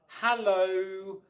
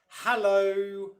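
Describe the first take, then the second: First: The stress falls on the first syllable. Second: The stress falls on the first syllable.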